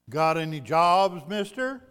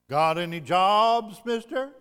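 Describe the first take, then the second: Both takes have the same delivery.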